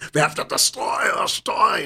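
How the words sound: It is read in a put-on German accent.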